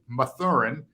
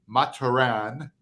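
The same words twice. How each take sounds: First: The name is said with an English pronunciation. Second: The name is said with a French pronunciation. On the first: This is how people usually say it. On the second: This is the official way to say it.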